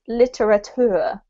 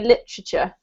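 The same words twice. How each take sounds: First: Every syllable is said fully and drawn out. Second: The syllables are squashed together and reduced. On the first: "they eke out all the syllables" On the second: "we actually squash this word up"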